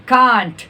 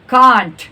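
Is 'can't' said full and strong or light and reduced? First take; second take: full; full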